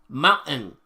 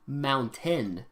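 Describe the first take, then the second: First: The middle t is dropped or swallowed. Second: The middle t is clearly pronounced. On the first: This is how locals say it. "We say mountain, ... T's" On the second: This is how other people say it. "We we don't say mountain"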